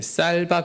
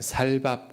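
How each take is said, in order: First: The word begins with a tense 's' sound. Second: The word begins with a plain 's' sound. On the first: "쌀밥 해봐" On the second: "경상도 사람들이 ... 살밥 그러잖아요"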